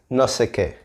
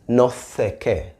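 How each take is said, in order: First: The s in 'sé' is a plain s sound. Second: The s in 'sé' is a th-like sound. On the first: "But he says" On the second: "if you listen carefully, he says"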